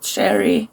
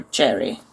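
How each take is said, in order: First: "cherry" said like "sherry"; soft sh onset. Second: "cherry" with a hard CH at the start; hard ch onset. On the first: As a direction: start "cherry" with a soft SH sound. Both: Shown as a demonstration. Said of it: "is it cherry or cherry?".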